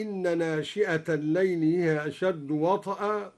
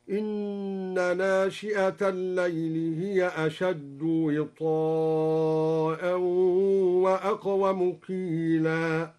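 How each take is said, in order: First: Said in the usual way. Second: وطئا as wi-taa-a with kasra on waw and a long drawn taa; slow recitation stretching وطئا into witaa'a; al-Duri's long wita'a. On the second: Shown as a demonstration. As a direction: hold the madd on وطئا very slowly in chant. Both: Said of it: "بكسر الواو وفتح الطاء ممدودة".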